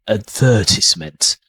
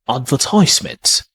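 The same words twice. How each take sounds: First: It is said in a British accent. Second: It is said in an American accent. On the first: "in British pronunciation, I say advertisement" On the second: "American tend to say advertisement"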